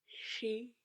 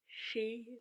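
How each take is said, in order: Both takes have the same delivery.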